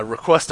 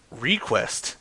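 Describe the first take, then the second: First: Said in the usual way. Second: "request" with a long REE at the front; REE-quest. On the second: Real, not acted. Host asking for prank requests, "request" said as REE-quest. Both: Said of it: "Request to quest again".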